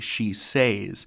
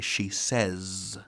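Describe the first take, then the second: First: The vowel in 'says' matches the vowel of 'say'. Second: The vowel in 'says' is changed to a short vowel. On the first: The speaker calls it wrong. "We don't say she says in standard American English" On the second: The speaker calls it right. "We say she says"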